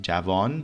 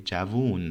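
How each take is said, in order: First: "javan" with a clear a sound in the last syllable; the textbook form, said carefully; formal pronunciation of "javan"; formal Persian. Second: "javun" with an oo sound in the last syllable; spoken form "javun"; colloquial Persian. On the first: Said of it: "Formal Persian, it is javan". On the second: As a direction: say it the way people really talk. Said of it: "we say javun". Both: Shown as a demonstration.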